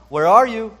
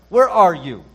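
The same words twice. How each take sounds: First: It is said as a plain, neutral question. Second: It is said in an angry tone. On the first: The speaker is simply asking for information. "as though God were simply just asking a question" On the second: The speaker is angry with the one addressed. "as if God were angry"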